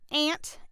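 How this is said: It is said in a Southern American twang. "I'm going to do a southern twang"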